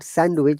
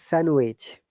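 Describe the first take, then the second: First: A D sound is heard in the middle. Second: No D sound is heard in the middle. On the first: The speaker calls it wrong. "but not sandwich" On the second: The speaker calls it right. "it is sandwich"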